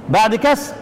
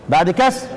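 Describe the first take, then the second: The two takes are said the same way.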